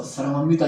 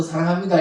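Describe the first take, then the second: First: Lower, mock-menacing profession of love; a love line through a mock growl; menacing declaration. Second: Mildly cheerful profession of love; smiling declaration. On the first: Preacher shows insincere love, mildly menacing. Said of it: "얼굴이 막 죽일 듯이 으르르 가면서". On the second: Preacher shows how love should be said, smiling. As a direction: say it with an audible smile. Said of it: "웃으면서". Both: Shown as a demonstration.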